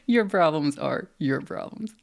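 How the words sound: It is said sassily, with a playful flair. "Or you can do the sassy method"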